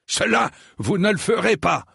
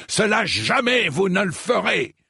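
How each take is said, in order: First: High, thundering refusal. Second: "jamais" punched high in a thundering refusal; thundering, stress on JAMAIS. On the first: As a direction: forbid it in a thundering voice. (voix tonnante) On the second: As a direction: thunder it, hitting the word "jamais". (voix tonnante, accent sur «jamais») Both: A narrator's reading. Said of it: "déclara sir Eustace d'une voix tonnante".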